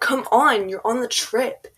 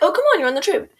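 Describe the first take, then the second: First: It is said in an annoyed, irritated tone. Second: It is said in a friendly, pleasant tone.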